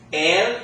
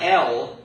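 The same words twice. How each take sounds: First: El with a pure Spanish e; correct pronunciation. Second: El as English letter L, dark ending; wrong pronunciation. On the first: Teacher models the Spanish article el, pure vowel. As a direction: say el with clean e and light l. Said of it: "we're gonna say". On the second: Teacher shows class the wrong el, English-sounding L. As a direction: say el the English way, like ell. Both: Shown as a demonstration.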